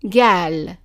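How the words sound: The word begins with a hard g sound. This is the form used in some regions. "the qaf is pronounced as a g sound"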